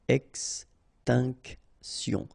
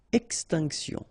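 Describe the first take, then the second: First: Very slow "Extinction", ex-tinc-tion; syllable by syllable. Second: Said in the usual way. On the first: Shown as a demonstration. French teacher modelling for learners, "Extinction" slowly syllable by syllable. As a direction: pause between each syllable of "Extinction".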